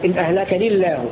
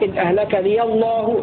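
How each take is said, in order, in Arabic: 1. الياء ساكنة واللام مرققة. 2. الياء متحركة واللام مفخمة. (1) "يسكن الهمزة حمزة وحده فيقرأ إن أهلك لي الله مع ترقيق اللام" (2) "بفتحها إن أهلكني الله مع تغليظ اللام"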